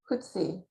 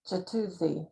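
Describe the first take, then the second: First: The name is said with two syllables. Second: The name is said with three syllables. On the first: The speaker calls it right. "You say it Hutsi" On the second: The speaker calls it wrong. "I was saying it like three syllables too, so that's wrong too"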